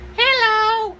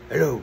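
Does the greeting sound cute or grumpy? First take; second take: cute; grumpy. First: The greeting sounds sweet and cute. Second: The greeting sounds gruff and grumpy. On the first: The call will be easy. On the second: The call will be difficult.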